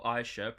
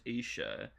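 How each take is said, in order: First: Aisha said with an opening 'eye'; Aisha with an eye sound. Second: Isha said with an opening 'ee'; Isha with an ee sound. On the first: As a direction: open Aisha on a long 'eye' vowel. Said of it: "I referred to Isha as Aisha". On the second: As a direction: open Isha on a long 'ee' vowel. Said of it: "pronounced Isha". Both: Shown as a demonstration.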